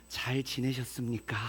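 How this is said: The greeting sounds tender and heartfelt.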